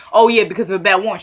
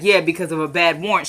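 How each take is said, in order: First: Sly trick question. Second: Said in the usual way. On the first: Retold or imitated. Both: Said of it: "See how he tried to trip you up?".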